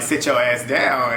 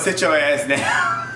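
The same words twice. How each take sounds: First: Put-on slow, lightly accented repeat of Gabo; imitating Gabo's accent. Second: Imitating Gabo's accent. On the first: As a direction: draw out "Sit your ass down" in a hint of Gabo's accent. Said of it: "his accent was funny 'cause the way he said it". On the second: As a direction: drag out "Sit your ass down" in Gabo's accent. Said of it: "his accent was funny".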